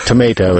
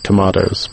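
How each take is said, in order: First: It is said in an American accent. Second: It is said in a British accent. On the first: "tomato is the American" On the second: "English, so I grow tomatoes"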